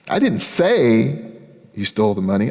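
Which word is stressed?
say. The word say carries the main stress. The speaker only thought it. "I was thinking it. I didn't tell anybody"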